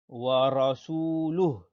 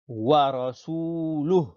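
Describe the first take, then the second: Both takes have the same delivery.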